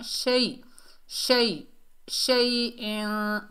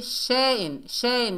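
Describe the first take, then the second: First: शै as one soft quick glide, then शैइन with long n. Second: शैइन quickly with a split "she-in" vowel; wrong broken glide. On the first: Teacher corrects learners, smooth शै. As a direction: glide gently through शै, hold the n. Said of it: "नरमी और जल्दी से अदा करेंगे". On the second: Teacher shows what to avoid, quick wrong शैइन. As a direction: rush शैइन, no held sound. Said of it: "नहीं पढ़ना". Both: Shown as a demonstration.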